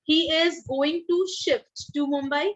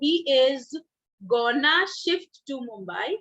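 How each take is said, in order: First: The phrase 'going to' is said in full. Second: The phrase 'going to' is reduced to 'gonna'.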